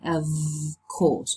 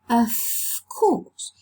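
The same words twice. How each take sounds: First: 'Of' ends in a voiced v sound. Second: 'Of' ends in a voiceless f sound. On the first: The speaker calls it wrong. "We don't say of course" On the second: The speaker calls it right. "we say of course. ... The voiced fricative v, v has changed into the voiceless fricative f"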